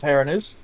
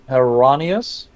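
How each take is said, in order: First: The name is pronounced as Heranus. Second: The name is pronounced as Heronius. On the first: The speaker calls it wrong. "Heranus is not actually the proper pronunciation of that guy's name" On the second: The speaker calls it right. "or uh"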